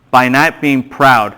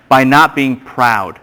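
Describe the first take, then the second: First: Slow, spelled-out dictation pace repeated. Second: Slow, spelled-out dictation pace. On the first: Pastor repeating the note for the class, slow. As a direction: give it again slowly for the note-takers. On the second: Pastor dictating notes to the class, slow and deliberate. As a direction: say it slowly so they can write it down. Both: Shown as a demonstration. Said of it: "just write this down".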